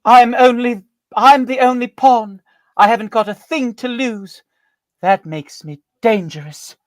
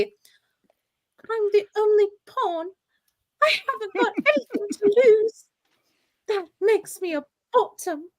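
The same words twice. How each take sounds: First: High, loud, slow menacing stage voice; dramatic performance. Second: Dramatic performance. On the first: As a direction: deliver it like a hammy villainess. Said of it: "and the performance is". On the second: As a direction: play it grand while cracking up. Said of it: "performance would be". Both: Pretend.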